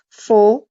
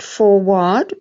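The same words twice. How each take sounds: First: The second vowel is a short uh sound. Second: The second vowel is a full vowel. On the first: The speaker calls it right. "but forward" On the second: The speaker calls it wrong. "not forward"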